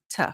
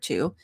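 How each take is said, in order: First: The word has a reduced, weak vowel. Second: The word has a full vowel. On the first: "we reduce T O" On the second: "like the number two"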